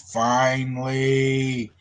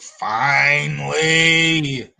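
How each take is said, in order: First: It is said in a calm, normal tone. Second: It is said in an angry tone.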